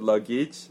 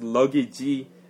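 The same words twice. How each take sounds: First: The word ends in a plain J sound. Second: The word ends with an extra ee vowel. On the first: The speaker calls it right. "but luggage sounds okay" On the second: The speaker calls it wrong. "luggage sounds a little strange"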